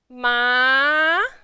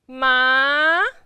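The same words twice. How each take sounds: No difference in how they are said.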